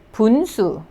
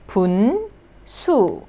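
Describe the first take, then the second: First: Said in the usual way. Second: "분, 수" split by a clear pause; syllable by syllable. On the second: Shown as a demonstration. Teacher building the word for learners, syllable by syllable. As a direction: sound out "분, 수" as two separate syllables. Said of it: "and then the consonant N".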